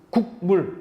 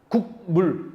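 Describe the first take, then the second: No difference in how they are said.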